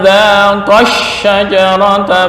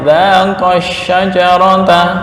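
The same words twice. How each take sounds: First: The verb is said with extra stress. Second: The verb is said without extra stress. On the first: Two people tasted the tree. "maka kita baca dengan naber" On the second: One person tasted the tree. "kalau mufrad ya, ... penekanannya enggak ada"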